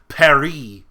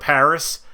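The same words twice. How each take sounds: First: It is said with a French pronunciation. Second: It is said with a plain English pronunciation.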